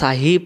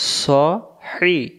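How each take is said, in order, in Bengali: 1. প্রথম s হালকা, খোলা a দিয়ে। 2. প্রথম s ভারী, ঠোঁট গোল করে। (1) "তখন সদটা সিন অক্ষর রূপান্তরিত হয়ে গেল" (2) "সদ অক্ষর ... মোটা করে পড়তে হয়"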